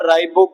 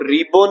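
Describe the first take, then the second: First: The first vowel sounds like 'eye'. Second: The first vowel sounds like 'ee'. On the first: The speaker calls it right. "राइबो को" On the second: The speaker calls it wrong. "रिबो नहीं कहना है"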